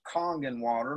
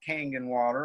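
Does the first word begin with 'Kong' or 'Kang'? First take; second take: kong; kang. First: The first word begins with 'Kong'. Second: The first word begins with 'Kang'. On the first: The speaker calls it right. "it's pronounced Kongan water" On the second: The speaker calls it wrong. "not Kangan water"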